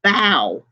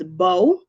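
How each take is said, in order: First: Bow rhyming with cow; bow as in taking a bow. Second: Bow rhyming with go; bow as in arrow. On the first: Teacher demonstrating bow as in taking a bow. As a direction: say bow like an actor's bow. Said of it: "or you can pronounce that as bow". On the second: Teacher demonstrating bow as in bow and arrow. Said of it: "you can pronounce that as bow". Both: Shown as a demonstration.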